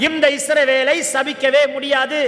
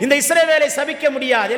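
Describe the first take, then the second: First: "இந்த இஸ்ரவேலை சபிக்கவே முடியாது" drawn out slowly, word by word; slow emphatic declaration. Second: Said in the usual way. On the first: Real, not acted. Repeats it for congregation to say.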